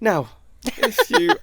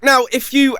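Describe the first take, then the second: First: It is delivered in a relaxed, conversational tone. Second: It is delivered with bright, projected broadcast energy. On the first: The speaker calls it right. "I'll do it podcasty" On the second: The speaker calls it wrong. "that was a bit radio-y how I did that"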